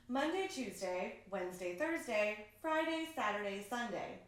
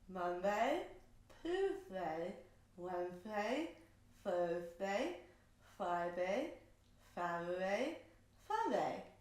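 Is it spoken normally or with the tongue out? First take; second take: normally; tongue out. First: It is spoken normally with clear articulation. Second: It is spoken with the tongue stuck out.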